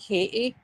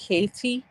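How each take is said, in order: First: The middle T sound is dropped. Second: The middle T sound is clearly pronounced. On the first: "we don't pronounce their T's. So you'll you'll hear me say Haiti" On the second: "instead of Haiti"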